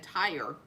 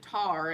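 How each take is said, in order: First: It is said in a Northern accent. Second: It is said in a Southern accent.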